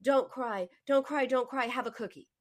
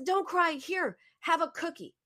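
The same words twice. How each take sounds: First: Lightly imitated hushing, a little raised in pitch; milder echo of an anxious mother; internalized mother's voice. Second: High-pitched, anxious mom soothing with a treat; panicky mother. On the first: Grown woman telling herself what mom said, mildly hushing. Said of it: "would say to herself". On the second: Retold or imitated. Mom offering a cookie to her crying girl, panicky. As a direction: imitate a mom urgently hushing her child.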